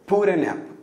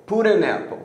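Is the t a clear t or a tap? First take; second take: tap; tap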